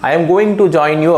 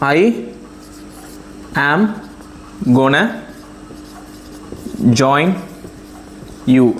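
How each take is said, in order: First: 'Going to' is said in full. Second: 'Going to' is reduced to 'gonna'.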